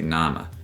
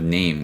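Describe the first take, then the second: First: The first vowel sounds like ah. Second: The first vowel sounds like ay. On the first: This is the older pronunciation before the shift. "we say nama" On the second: This is the modern pronunciation. "Instead of name"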